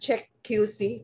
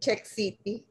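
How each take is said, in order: First: The ending is spelled out as letters Q C. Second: The ending is read as the word city.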